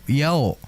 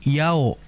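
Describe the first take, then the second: The two takes are said the same way.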